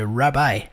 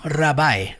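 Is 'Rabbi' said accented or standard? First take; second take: standard; accented. First: It is said in a standard way. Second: It is said with a marked accent. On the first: This is the usual pronunciation. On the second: This is how the characters say it. "eles pronunciam mais ou menos assim"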